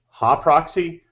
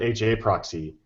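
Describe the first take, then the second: First: HA is said as one syllable, 'ha'. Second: HA is spelled out as two letters. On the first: "You pronounced it Ha proxy" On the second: "I've always called it H A proxy"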